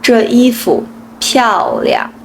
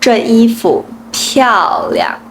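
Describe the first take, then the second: Both takes have the same delivery.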